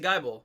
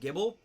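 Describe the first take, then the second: First: The first syllable sounds like the start of Bible. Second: The first syllable does not sound like Bible. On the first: This is the speaker's own pronunciation. "I pronounce it Geibel, ... it's spelled like Bible" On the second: Some other people say it this way. "some people pronounce it Gibble"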